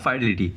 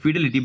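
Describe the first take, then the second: First: The first syllable sounds like 'fye'. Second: The first syllable sounds like 'fee'. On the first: "ফিডেলিটি বা ফাইডেলিটি যেমনভাবে তোমরা pronunciation করতে পারো" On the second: "ফিডেলিটি বা ফাইডেলিটি যেমনভাবে তোমরা pronunciation করতে পারো"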